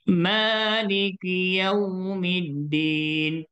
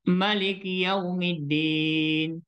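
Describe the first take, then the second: First: The first vowel of Maliki is long. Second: The first vowel of Maliki is short. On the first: It follows the Hafs reading tradition. "kena baca secara mat asli" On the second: It follows another reading tradition. "ada yang boleh baca Maliki Yaumiddin"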